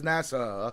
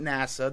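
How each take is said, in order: First: The word ends with two final 'ah' sounds. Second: The word ends with a single final 'ah' sound. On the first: It names the state securities regulators' association. The speaker calls it right. "make sure you pronounce both final A's" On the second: It names the space agency. The speaker calls it wrong. "This isn't NASA. They're not launching rockets"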